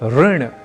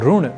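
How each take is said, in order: First: The first syllable is said as ri. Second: The first syllable is said as ru. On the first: The speaker calls it right. "री को री के रूप में ही समझना है" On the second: The speaker calls it wrong. "र या रू के रूप में उच्चारित करना क्यों गलत है"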